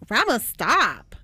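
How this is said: It is said in a disgusted tone.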